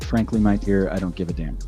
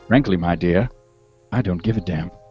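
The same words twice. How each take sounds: First: It is said in a plain, ordinary voice. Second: It is said in a movie-character voice.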